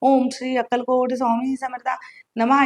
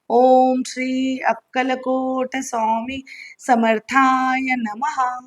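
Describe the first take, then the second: First: The mantra is said very fast and rushed. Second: The mantra is said slowly and gently. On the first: The speaker calls it wrong. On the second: The speaker calls it right.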